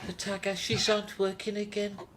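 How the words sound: It is said in a Birmingham Brummy accent. The speaker calls it right.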